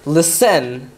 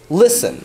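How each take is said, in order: First: The stress is on the second syllable. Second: The stress is on the first syllable. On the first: The speaker calls it wrong. "It's not listen" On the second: The speaker calls it right. "You put more stress on the li than the sen"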